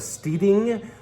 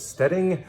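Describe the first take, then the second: First: The first vowel is a long 'ee' sound. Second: The first vowel is a short 'e' sound. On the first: The speaker calls it right. "that's how you say it" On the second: The speaker calls it wrong. "not the Stedding"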